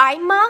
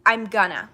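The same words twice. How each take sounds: First: I'ma said as one quick slurred word, eye-muh. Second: Said in the usual way. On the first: Shown as a demonstration. Teaching viewers the slang form I'ma, slow. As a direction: contract I'm gonna down to I'ma, slow and stressed. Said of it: "I'ma is actually I'm gonna, but, like, easier". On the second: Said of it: "I'ma is actually I'm gonna".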